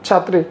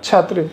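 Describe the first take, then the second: No difference in how they are said.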